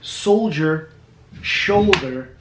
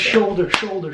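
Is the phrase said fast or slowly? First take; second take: slowly; fast. First: It is said slowly with both words distinct. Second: It is said fast with both words sounding alike. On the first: "When you say it slow and it's like soldier, shoulder" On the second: "When you say it fast, it's shoulder"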